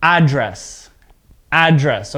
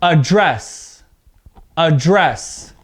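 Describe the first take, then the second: First: Careful demo of address with a full opening vowel; stress on first syllable. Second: Careful demo of Address with a weak first syllable and strong second; stress on second syllable. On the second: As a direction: Address as uh-DRESS, voice rising on DRESS. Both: Shown as a demonstration. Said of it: "see how my voice changes a bit there".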